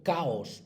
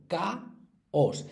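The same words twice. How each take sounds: First: Said in the usual way. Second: "caos" broken into ca - os; por sílabas. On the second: Shown as a demonstration. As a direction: clear pause inside "caos", after ca. ("caos" separado: ca, os) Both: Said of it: "Esas sí hay que separarlas".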